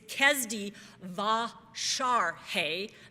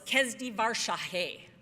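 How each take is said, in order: First: The R sound comes late in the second word. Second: The R sound comes early in the second word. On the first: The speaker calls it right. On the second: The speaker calls it wrong. "what I had remembered was"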